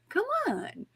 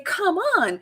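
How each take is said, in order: First: The voice sounds warm and inviting. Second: The voice sounds harsh and impatient. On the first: The listener is being encouraged. "Be that inviting" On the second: The listener is being pushed or scolded. "it's just the tone of the voice"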